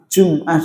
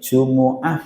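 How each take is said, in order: First: The word has two syllables, jum-ah. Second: The word has three syllables, ju-mu-ah. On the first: "Jum'ah juga boleh" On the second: "Jumu'ah boleh"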